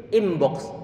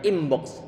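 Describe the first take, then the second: Both takes have the same delivery.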